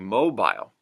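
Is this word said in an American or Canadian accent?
Canadian. It is said in a Canadian accent. "Canadian English"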